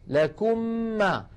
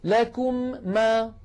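First: The two m sounds merge into one long m. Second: The two m sounds are said separately. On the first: The speaker calls it right. "أطبقنا على ميم ساكنة وفتحنا على ميم متحركة" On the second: The speaker calls it wrong. "هل تجدون الصعوبة والتكرار الذي لا داعي له؟"

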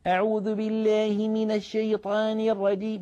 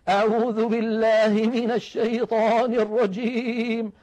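First: The vowels are bent toward an e sound. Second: The voice shakes and trembles throughout. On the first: "يجعل دائما فكه يعوج بالحروف التي لا ينبغي فيها الإمالة" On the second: "جعلوا الصوت كأنه يهتز ويضطرب ويرتعد"

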